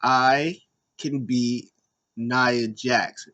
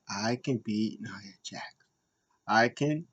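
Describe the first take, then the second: First: Coaching chant. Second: Timid repeat. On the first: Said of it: "She was like, "Hey, repeat after me". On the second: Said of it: "And she's like". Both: Retold or imitated.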